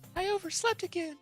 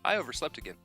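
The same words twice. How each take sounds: First: It is said in a put-on female voice. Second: It is said in his normal voice.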